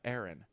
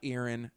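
First: The first syllable sounds like the word 'air'. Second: The first syllable does not sound like 'air'. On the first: The speaker calls it right. "let the air in" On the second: The speaker calls it wrong. "Not Aaron"

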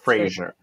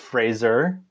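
First: The name sounds like Frasier, ending in 'zhier'. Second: The name rhymes with laser, ending in 'zer'. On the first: The speaker calls it wrong. "not Fraser" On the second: The speaker calls it right. "we're letting everyone know it's Fraser"

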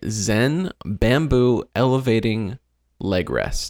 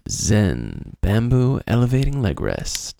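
First: It is said in a plain reading voice. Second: It is said in a sultry, seductive voice.

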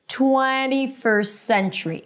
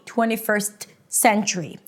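First: The T in 'first' is dropped, linking into 'century' with one S. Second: The T in 'first' is pronounced, with a break before 'century'. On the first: The speaker calls it right. "I just eliminate the T. I don't pronounce it" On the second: The speaker calls it wrong. "That's not how you want to say it"

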